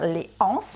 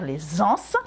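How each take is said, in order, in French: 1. 'Les' et 'anses' se disent sans z de liaison. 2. 'Les' se lie à 'anses' avec un son z. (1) "il m'arrive de dire les anses" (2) "au lieu de dire les anses"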